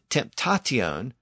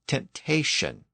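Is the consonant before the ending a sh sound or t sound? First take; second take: t sound; sh sound. First: A t sound comes before the ending. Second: A sh sound comes before the ending. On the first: The older, unsoftened pronunciation. "this same process affected the T sound" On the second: The later, softened pronunciation. "It became shion or sion"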